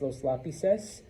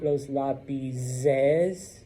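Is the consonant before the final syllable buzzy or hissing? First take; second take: hissing; buzzy. First: The consonant before the ending is a hissing s. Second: The consonant before the ending is a buzzing z. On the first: The speaker calls it right. "it's los lápices" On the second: The speaker calls it wrong. "the Z becomes buzzy. And so it's not los lápices"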